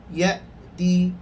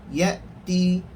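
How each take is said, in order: The two takes are said the same way.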